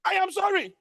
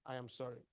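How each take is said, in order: First: High, loud, forceful "I am sorry". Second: Low, soft, gentle "I am sorry". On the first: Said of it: "There's a difference between". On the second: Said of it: "Same sentence, two different meaning". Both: Shown as a demonstration.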